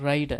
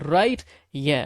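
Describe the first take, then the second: First: The two words run together as one. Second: The two words are said separately.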